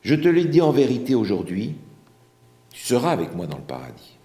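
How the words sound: The pause comes after 'aujourd'hui'.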